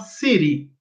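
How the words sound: It is said in an American English accent. "o americano fala"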